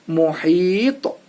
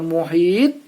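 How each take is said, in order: First: The final consonant ends with a bouncing echo. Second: The final consonant stops with no bouncing echo. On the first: The speaker calls it right. "tetapi muhito" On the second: The speaker calls it wrong. "bukan dibaca muhit"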